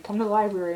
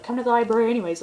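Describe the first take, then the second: First: Said in the usual way. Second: Imitating a friend pressing the point, higher and quicker; mock insistent, hurried retelling. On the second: Friend overrules the excuse about the bathroom, insistent.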